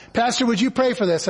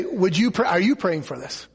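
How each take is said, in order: First: Said in the usual way. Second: "you" stressed, dropping lower after it. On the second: Retold or imitated. Pastor handing the request back, stress on "you". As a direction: turn it back by leaning on "you".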